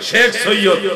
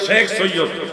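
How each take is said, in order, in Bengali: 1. প্রথম শব্দটির উচ্চারণ দৈনন্দিন বাংলা উচ্চারণের মতো। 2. প্রথম শব্দটির উচ্চারণ দৈনন্দিন বাংলা উচ্চারণের মতো।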